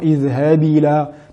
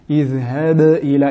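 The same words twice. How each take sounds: First: The b is released without any echoing bounce. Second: The b is released with a clear echoing bounce. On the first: The speaker calls it wrong. "Et non" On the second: The speaker calls it right. "mettre en valeur la qalqala de la lettre ba"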